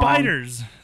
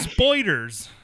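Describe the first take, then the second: First: The first vowel sounds like 'eye'. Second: The first vowel sounds like 'oy'. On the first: The speaker calls it right. "why can't you say" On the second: The speaker calls it wrong. "The motherfucker says"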